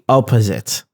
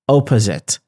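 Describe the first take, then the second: The two takes are said the same way.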